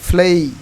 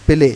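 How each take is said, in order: First: The vowel glides upward into an 'ee'. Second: The vowel is a plain, steady 'e'. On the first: The speaker calls it right. "এটার উচ্চারণ এখন থেকে হবে ফ্লেই" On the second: The speaker calls it wrong. "আমরা বলি প্লে"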